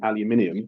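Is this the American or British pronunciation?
British. It is said with five syllables, British style.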